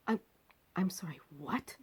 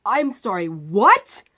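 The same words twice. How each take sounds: First: Breathless, disbelieving whisper; stunned whisper. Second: Loud, sharp, incredulous; loud disbelief. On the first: Stunned whisper to the surgeon about waiting till tomorrow. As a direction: barely voice it, stunned. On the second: Loud disbelief at the surgeon who says tomorrow. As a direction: demand it loudly, shocked. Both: Retold or imitated.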